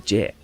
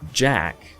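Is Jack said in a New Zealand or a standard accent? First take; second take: New Zealand; standard. First: The name is said with a New Zealand vowel. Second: The name is said with a standard vowel. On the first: "he would say Jack" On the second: "because it's Jack"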